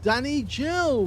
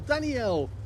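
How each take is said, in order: First: The name has a 'j' sound in the middle. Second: The name has a vowel sound in the middle. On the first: The speaker calls it wrong. "I kept pronouncing it Danny Gel because there were so many J's in there" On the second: The speaker calls it right. "I think it's actually pronounced Danielle"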